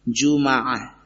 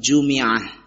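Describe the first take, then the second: First: The m is followed by an a vowel. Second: The m is followed by an i vowel. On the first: "bi fathil mim jumaah" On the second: "bisa juga dibaca dengan kasrah"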